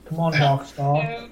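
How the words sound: The voice is low and deep. "this is my deep British accent"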